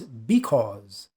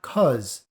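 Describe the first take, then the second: First: The word is said with its first syllable. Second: The word is said without its first syllable. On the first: The speaker calls it right. "The word is because" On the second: The speaker calls it wrong. "it is not cause"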